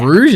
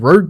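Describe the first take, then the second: First: The name ends with a soft zh sound. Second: The name ends with a hard g sound. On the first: The speaker calls it right. "Is that how you say it?" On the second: The speaker calls it wrong. "Why have I said Rogue this whole time?"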